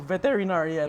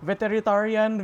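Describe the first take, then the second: First: The middle of the word sounds like 'rinar'. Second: The middle of the word sounds like 'ritar'. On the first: The speaker calls it right. "hindi ko pa alam paano i-pronounce yung veterinarian" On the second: The speaker calls it wrong. "kung ano man yung pronunciation ko nun"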